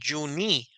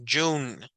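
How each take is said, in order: First: A vowel sound is heard after the final n. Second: The word ends on the n with no vowel. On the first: The speaker calls it wrong. "No dijimos Juni" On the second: The speaker calls it right. "sino es June"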